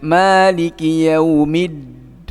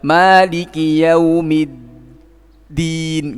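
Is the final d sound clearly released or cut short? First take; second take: cut short; clearly released. First: The final d sound is cut short, unclear. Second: The final d sound is released clearly. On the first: The speaker calls it wrong. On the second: The speaker calls it right. "itu akan lebih jelas"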